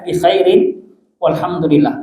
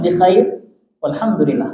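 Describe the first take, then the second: First: The word khair ends with a vowel and n. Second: The word khair ends on a bare consonant. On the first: "kita hidupkan harokatnya" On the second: "kalau kita mau syukur boleh"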